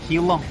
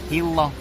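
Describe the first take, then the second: The two takes are said the same way.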